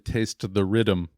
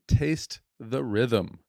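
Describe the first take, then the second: First: It is said in a plain American accent. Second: It is said in a put-on Jamaican accent. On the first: "it's actually" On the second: "it just sounds so much cooler when you say it with an accent"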